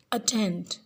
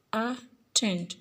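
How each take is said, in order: First: Said in the usual way. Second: "attend" split, a, pause, then stressed tend; stress on last syllable. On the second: Shown as a demonstration. Teacher showing stressed last part, "attend" split as a-TEND. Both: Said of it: "The last part of the word attend is set more force to stress".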